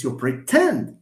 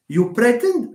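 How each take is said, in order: First: "pretend" stressed on TEND, slowly; corrected pre-TEND for "pretend"; stress on second syllable. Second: "pretend" stressed high on PRE; stress on first syllable. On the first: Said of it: "the second syllable". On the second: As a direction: hit PRE, drop the end of "pretend". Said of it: "No, it's you pretend". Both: Shown as a demonstration.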